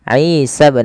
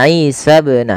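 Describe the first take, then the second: Both takes have the same delivery.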